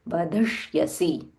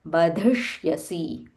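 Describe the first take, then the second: The two takes are said the same way.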